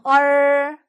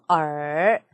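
First: The pitch stays high and level. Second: The pitch dips low. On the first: "일성" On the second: "삼성"

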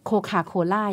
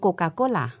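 First: The k sounds are aspirated, with a puff of air. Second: The k sounds are unaspirated, with no puff of air. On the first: The speaker calls it wrong. "เราก็ไปอ่านตามแบบภาษาอังกฤษ" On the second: The speaker calls it right. "เราจะอ่านว่าโกกาโกล่า"

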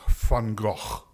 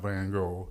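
First: The name is said with a Dutch pronunciation. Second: The name is said with an English pronunciation. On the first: The speaker calls it right. "if you're Dutch, you pronounce the gentleman's name" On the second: The speaker calls it wrong.

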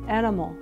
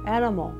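The two takes are said the same way.

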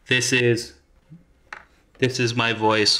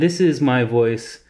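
First: The voice is heard amplified through a loudspeaker. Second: The voice is heard directly, without amplification. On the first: "this is my voice with the microphone powered on" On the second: "this is my voice at regular"

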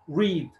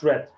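First: It is pronounced as the present-tense form. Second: It is pronounced as the past-tense form. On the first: The action is a habit, not a completed past event. The speaker calls it right. "So here it's read. ... It is present" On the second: The action is a completed past event. The speaker calls it wrong. "Not read. No, it's not past"

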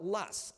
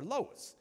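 First: The word is said the Midwestern way. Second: The word is said the Southern way. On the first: The speaker learned it in the Midwest. "If you're educated or your professor was educated in the Midwest, you will call it Luss" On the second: The speaker is from the South. "And if you're in the South, y'all, we call it Lois"

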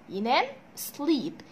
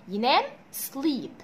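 The two takes are said the same way.

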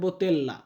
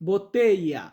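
First: The double l sounds like an l. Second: The double l sounds like a y. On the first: The speaker calls it wrong. "অনেকে বলতে পারেন বোতেল্লা" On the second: The speaker calls it right. "আমরা বলি বোতেইয়া"

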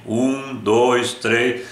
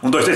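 First: The numbers are counted slowly with pauses. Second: The numbers are counted quickly. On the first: The speaker calls it right. "Conta pausadamente" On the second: The speaker calls it wrong. "Não é contando rápido, não, também não dá certo"

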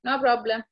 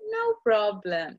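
First: It is said in an annoyed, angry tone. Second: It is said in a warm, loving tone.

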